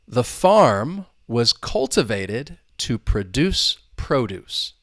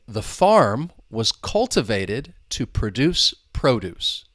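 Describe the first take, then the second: No difference in how they are said.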